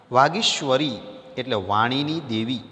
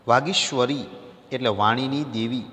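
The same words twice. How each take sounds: The two takes are said the same way.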